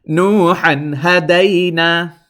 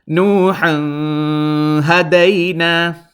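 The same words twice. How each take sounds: First: The n is short and clear, not nasalized. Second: The n is lengthened and held in the nose. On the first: The speaker calls it right. "let's go over correctly" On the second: The speaker calls it wrong. "I was holding it in my nose, and that is incorrect"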